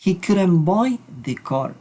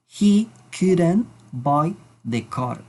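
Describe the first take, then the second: First: Slow, careful English example; slow model sentence. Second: Even slower, deliberate repeat. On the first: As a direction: read it slowly for learners. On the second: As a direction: repeat it very slowly. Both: Shown as a demonstration. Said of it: "Vamos a decir".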